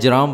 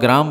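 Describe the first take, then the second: First: The word begins with a j sound. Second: The word begins with a g sound. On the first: "जराम बोलें, सब बोला जाता है" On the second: "इसको आप ग्राम बोलें"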